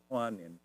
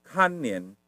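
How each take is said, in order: First: "kuanen" with a w glide after k; "kuanen", first syllable kwa; common mixed pronunciation. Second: "kanen" with plain kan, no w glide; "kanen", first syllable kan; proper pronunciation. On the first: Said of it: "mereka ngomong kuanen". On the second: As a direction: say "kanen" as the correct form. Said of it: "Seharusnya sih kanen". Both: Shown as a demonstration.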